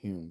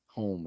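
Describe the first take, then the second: First: The vowel sounds like the vowel in 'fume'. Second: The vowel sounds like the vowel in 'home'. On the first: This is how the name is said in Scottish. The speaker calls it right. "but in Scottish it's Hume" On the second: This is how English people said the name. The speaker calls it wrong. "kept calling you know pronouncing him his name uh, home"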